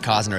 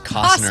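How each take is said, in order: First: The t sound in the middle is dropped. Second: The t sound in the middle is pronounced. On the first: The speaker calls it wrong. "It's not Cosner" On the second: The speaker calls it right. "It's Costner"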